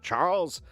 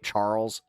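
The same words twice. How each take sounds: First: The name is said in a British accent. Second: The name is said in his ordinary accent. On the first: The speaker calls it right. "it's much better with a little bit of a fine-tuned British accent" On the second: The speaker calls it wrong. "I hate when I like have to say my name"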